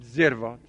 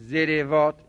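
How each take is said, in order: First: The r is followed by no vowel. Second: The r is followed by an i vowel. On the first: The speaker calls it right. "به سکون" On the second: The speaker calls it wrong. "عین الفعل حق دارد تبعیت از فاعل فعل بکند"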